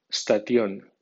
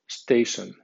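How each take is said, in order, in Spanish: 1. Se lee con los sonidos de las letras españolas. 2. Se lee con sonidos y acento ingleses. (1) "primero digo la palabra como si fuera española" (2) "a continuación la digo en pronunciación inglesa"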